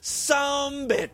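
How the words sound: It is said in a Southern, clipped manner.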